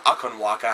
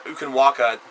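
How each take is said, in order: First: "Akan Waka" begun with an "ah" sound; "Akan Waka", opening vowel as "ah"; alternative pronunciation. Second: "Ukan Waka" begun with an "oo" sound; "Ukan Waka", opening vowel as "oo"; first pronunciation. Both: Shown as a demonstration. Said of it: "however you would like to say it".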